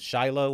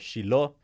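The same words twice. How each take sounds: First: The name is pronounced the usual English way. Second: The name is pronounced the Hebrew way.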